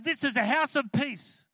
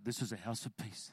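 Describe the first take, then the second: First: It is said loudly, almost yelled. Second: It is said calmly, not yelled.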